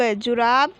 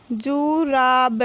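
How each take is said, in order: First: Said in the usual way. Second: Slow, stretched जु, रा, ब, falling at the end; drawn-out teaching reading of जुराब; syllable by syllable. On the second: Shown as a demonstration. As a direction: sound out जुराब piece by piece. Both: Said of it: "तो हम इस प्रकार पढ़ेंगे".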